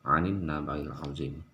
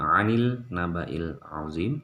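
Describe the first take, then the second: First: The first word ends with an n sound. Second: The first word ends with an l sound. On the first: The speaker calls it right. "tetapi 'anin, masuk langsung melebur ke sini nun" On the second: The speaker calls it wrong. "Jadi bukan bukan 'anil naba'il 'azim"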